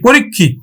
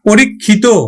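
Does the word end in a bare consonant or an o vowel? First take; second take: bare consonant; o vowel. First: The word ends on a bare consonant sound. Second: The word ends with a final o vowel. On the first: The word is used as a noun. "যখন বিশেষ হিসাবে ব্যবহার করছি তখন কিন্তু হসন্ত দিচ্ছি" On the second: The word is used as an adjective. "বিশেষণ হিসাবে ব্যবহার করছি তখন কিন্তু আমরা দিচ্ছি পরীক্ষিত ওকার দিচ্ছি"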